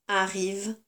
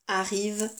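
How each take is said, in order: The two takes are said the same way.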